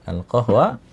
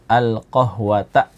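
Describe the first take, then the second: First: The word ends with a plain a vowel. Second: The word ends with an added ta syllable. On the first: The speaker calls it wrong. "benar apa salah... Salah ya" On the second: The speaker calls it right. "qahwata ya, maf'ulun bihi mansub"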